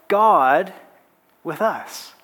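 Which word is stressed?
God. The stress is on God.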